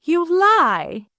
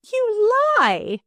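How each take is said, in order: First: High and louder, stress on lie; furious repeat. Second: High furious cry, much higher; wrathful accusation. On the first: Stepdaughter repeats the charge, louder and furious. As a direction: hit lie harder the second time. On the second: Stepdaughter accuses her stepfather, furious high cry. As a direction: hurl the accusation at him. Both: A narrator's reading. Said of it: "eyes blazing with wrath".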